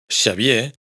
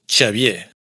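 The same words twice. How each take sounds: First: It starts with a pure sh sound. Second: It starts with a strong ch sound. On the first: "en vez de Xavier" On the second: "o un mucho de ch"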